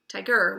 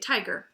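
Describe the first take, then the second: First: The stress is on the second syllable. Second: The stress is on the first syllable. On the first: The speaker calls it wrong. "We don't say tiger" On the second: The speaker calls it right. "that open syllable has the accent"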